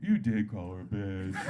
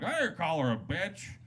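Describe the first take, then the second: First: Put-on low, slow drunken correction; drunk sidekick. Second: Put-on raised-pitch drunk's denial; protesting denial. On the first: Drunk friend contradicting his buddy from behind, drunken. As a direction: drag it out low like a stumbling drunk. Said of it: "his drunk friend stumbles up behind him". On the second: Hammered guy answering the host, protesting. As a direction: deny it as the offended party. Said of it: "He's like".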